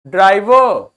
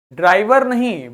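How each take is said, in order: First: ड्राइवर without the final r, the right way. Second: ड्राइवर with a rolled final r; ड्राइवर with the final r pronounced, as the wrong example. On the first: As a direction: say ड्राइवर as draiva, dropping the r. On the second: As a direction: say ड्राइवर ending on a clear r sound. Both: Shown as a demonstration. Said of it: "अंत वाला आर बोलना नहीं होता".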